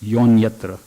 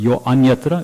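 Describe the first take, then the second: First: The a of anyatra is dropped entirely. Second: The a of anyatra is pronounced separately. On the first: The speaker calls it right. "it's yonyatra" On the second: The speaker calls it wrong. "Instead of yo anyatra"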